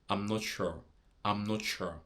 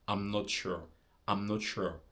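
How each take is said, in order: Both takes have the same delivery.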